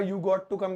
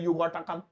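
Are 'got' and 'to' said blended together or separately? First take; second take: separately; blended. First: Got and to are said as separate words. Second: Got and to blend into one word, gotta. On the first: "you गॉट टू come की जगह" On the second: "ऐसे short है American"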